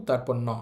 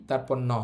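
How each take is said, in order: No difference in how they are said.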